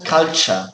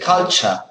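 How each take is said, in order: First: The middle has a ch sound. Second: The middle has a ch sound.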